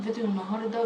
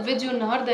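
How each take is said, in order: First: It is said in a calm, soft voice. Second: It is said in a loud, shouting voice. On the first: The speaker calls it right. "الكلام بصوت هادي وواضح" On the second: The speaker calls it wrong. "التجعير او الصوت العالي"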